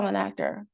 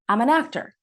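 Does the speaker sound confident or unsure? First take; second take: unsure; confident. First: It is said meekly, without confidence. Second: It is said firmly, with confidence. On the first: The speaker does not fully believe it. The speaker calls it wrong. "I wasn't saying it with confidence" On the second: The speaker firmly believes it. The speaker calls it right. "Say it with confidence"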